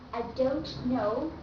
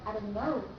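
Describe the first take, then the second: First: The T in don't is fully released. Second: The T in don't is cut off. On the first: The speaker calls it wrong. "instead of saying" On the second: The speaker calls it right. "the start of the letter T is cut off"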